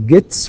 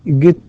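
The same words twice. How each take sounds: First: The word ends with an s sound. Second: The word ends with a z sound. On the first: The speaker calls it right. "t is also voiceless. فنقول gets" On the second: The speaker calls it wrong. "وليس gets"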